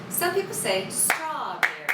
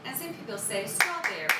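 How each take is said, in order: First: Strawberry with a long first syllable and two short ones; long short short rhythm. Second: Strawberry in three even quick syllables; even triplet rhythm. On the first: Teacher showing kids one rhythm for strawberry, long short short. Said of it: "which would be long, short, short". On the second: Teacher showing kids the triplet rhythm for strawberry. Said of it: "which would be a triplet". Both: Shown as a demonstration.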